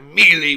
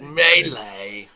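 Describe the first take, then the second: First: The first syllable sounds like the word 'meal'. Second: The first syllable does not sound like 'meal'. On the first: The speaker does not know the pronunciation. The speaker calls it wrong. "That would be like a worm. Yes, a mealworm" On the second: The speaker knows the pronunciation. The speaker calls it right. "It's melee"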